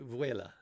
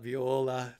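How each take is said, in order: First: It is said as vuela. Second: It is said as viola. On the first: The speaker calls it right. "correct pronunciation of my channel name is Chili Vuela" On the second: The speaker calls it wrong. "not Viola"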